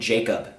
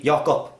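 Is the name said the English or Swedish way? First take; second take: English; Swedish. First: The name is said with English pronunciation. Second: The name is said with Swedish pronunciation. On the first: "If I would go to America, people would probably call me Jacob" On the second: "they wouldn't pronounce it in Swedish, which would be Jakob"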